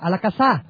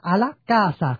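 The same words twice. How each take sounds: First: The stress is on the syllable sa. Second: The stress is on the syllable ca. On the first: The speaker calls it wrong. "không được nhấn a la casa" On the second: The speaker calls it right. "nó nhấn là a la casa"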